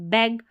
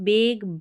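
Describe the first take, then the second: First: The vowel is a short 'a', as in 'bag'. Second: The vowel sounds like 'ay', as in 'bake'. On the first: The speaker calls it right. "यानी short sound ए का आएगा" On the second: The speaker calls it wrong. "नहीं पढ़ना है"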